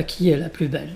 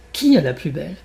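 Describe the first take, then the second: First: Said in the usual way. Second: "Qui" lifted and stressed, the question rising clearly at "belle"; question intonation. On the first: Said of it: "Et pas qui est la plus belle". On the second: Shown as a demonstration. Teacher showing learners how to ask the question, stressed rising intonation. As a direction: lean on "Qui" and let the question climb. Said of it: "bien insister pour dire qui est la plus belle".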